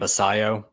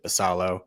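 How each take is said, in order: First: The middle consonant is a Y sound. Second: The middle consonant is an L sound. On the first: "I think is how it's pronounced" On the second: "I've heard some pr- pronounce it Basalo"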